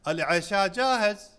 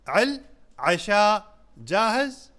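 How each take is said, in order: First: It is said as a statement, falling. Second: It is said as a question, rising.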